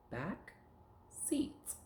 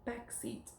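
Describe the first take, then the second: First: "Back", pause, "seat", as separate words; word chopped up. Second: Said in the usual way. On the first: Shown as a demonstration. Teacher taking words apart for pupil, separate "Back", "seat". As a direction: leave a clear gap between "Back" and "seat". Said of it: "We're gonna chop 'em up". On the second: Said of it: "now we're gonna take words apart".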